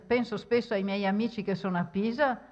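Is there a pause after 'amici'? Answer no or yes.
no. It runs on with no pause after amici. Only the particular friends who are in Pisa are meant. "vuol dire quegli amici speciali che sono quelli che sono a Pisa"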